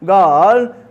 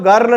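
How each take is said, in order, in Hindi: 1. स्वर खिंचा हुआ है और उसमें R की आवाज़ नहीं है। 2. स्वर छोटा है और उसमें R की आवाज़ है।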